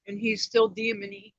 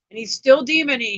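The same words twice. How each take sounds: First: Said in the usual way. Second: Repeated louder. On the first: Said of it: "first take". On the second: Shown as a demonstration. Mother venting to viewers about her ex, louder. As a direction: still demony said again, louder and higher. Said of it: "repeated louder".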